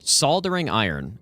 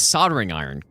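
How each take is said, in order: First: The L in soldering is clearly pronounced. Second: The L in soldering is left silent. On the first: "Why are you adding the L?" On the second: "no, dude, it's it's soldering iron"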